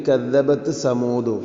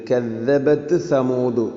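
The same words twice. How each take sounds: Both takes have the same delivery.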